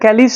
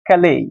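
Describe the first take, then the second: First: The word ends with an s sound. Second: The word ends without an s sound. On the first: The speaker calls it wrong. "কিন্তু ক্যালিস নয়" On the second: The speaker calls it right. "দেখো এই উচ্চারণ"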